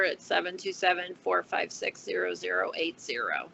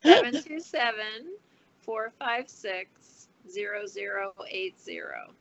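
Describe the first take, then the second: First: The number is said quickly. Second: The number is said more slowly.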